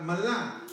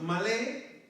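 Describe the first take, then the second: First: "malá" said slowly, stressed on the final á; slow down and land on the A of "malá". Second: "malé" said slowly, stressed on the final é; slow down and land on the E of "malé". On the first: Preacher repeating the other reading for the congregation, final-A stress on "malá". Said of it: "acento en la A". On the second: Preacher repeating the word for the congregation, final-E stress on "malé". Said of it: "con acento en la E". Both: Shown as a demonstration.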